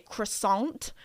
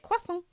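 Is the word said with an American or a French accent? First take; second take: American; French. First: It is said with an American accent. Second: It is said with a French accent. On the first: "my American friends, you guys say croissant" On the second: "in French, like the French, they say it croissant"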